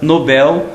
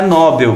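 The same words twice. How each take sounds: First: The stress is on the last syllable. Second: The stress is on the first syllable. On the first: The speaker calls it right. "a palavra Nobel" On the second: The speaker calls it wrong. "não é Nobel, porque se fosse Nobel teria que estar acentuada"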